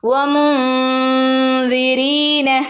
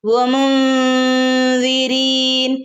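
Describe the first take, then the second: First: The word ends with a short final vowel. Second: The word ends on n with no vowel. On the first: The recitation continues into the next words. "കൂട്ടിച്ചേർത്ത് ഓതുകയും ചെയ്യാം" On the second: The recitation stops here. "വമുൻദിരീൻ എന്ന് പറഞ്ഞ് നിർത്തുകയും ചെയ്യാം"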